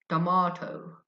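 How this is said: British accent, the middle syllable sounds like 'mah'. "The British people also say tomato, tomato. The stress on the second syllable ma"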